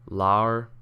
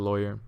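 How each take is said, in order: First: The first syllable rhymes with flaw. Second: The first syllable rhymes with boy. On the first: The speaker calls it wrong. "Rhymes with flaw. ... No. Ew" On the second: The speaker calls it right. "Rhymes with boy"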